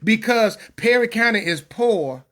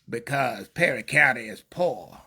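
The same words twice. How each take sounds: First: It is said in the speaker's normal voice. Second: It is said in a put-on imitating voice.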